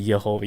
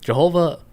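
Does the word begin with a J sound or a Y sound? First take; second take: Y sound; J sound. First: The word begins with a Y sound. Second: The word begins with a J sound. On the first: "It's supposed to be Yehovah" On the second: "the Y is pronounced like a J"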